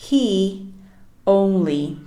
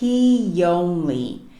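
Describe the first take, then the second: First: The two words are said separately, without linking. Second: A soft y sound links the two words. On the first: The speaker calls it wrong. "como duas palavras separadas" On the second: The speaker calls it right. "eu vou falar he only"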